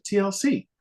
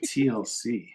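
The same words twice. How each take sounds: First: High-pitched retold band name; quick, high answer; matter-of-fact announcement. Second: Blank, unrecognizing repeat; puzzled echo. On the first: Woman names her famous band. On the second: Retold or imitated. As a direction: echo it as if it means nothing. Puzzled echo of band name.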